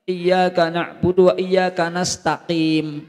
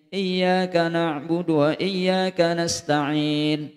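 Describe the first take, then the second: First: The last word ends with an m sound. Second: The last word ends with an n sound. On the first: The speaker calls it wrong. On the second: The speaker calls it right.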